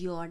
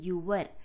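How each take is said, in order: First: 'Your' is shortened to one quick syllable. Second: 'Your' is said fully with two syllables. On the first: "స్పీడ్లో అలా వస్తుంది sound" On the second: "మీరు యువర్ అని కూడా అనొచ్చు"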